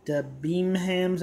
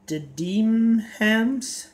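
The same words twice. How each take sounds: First: Debenhams said slowly as "bimhams", less rising; second try. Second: Debenhams said slowly as "dimhems" with a questioning rise; sounding out "Debenhams" hesitantly, rising; unsure pronunciation. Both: Real, not acted. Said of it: "I'm probably saying it wrong".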